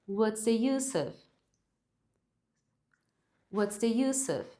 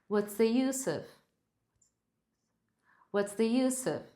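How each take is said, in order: Both takes have the same delivery.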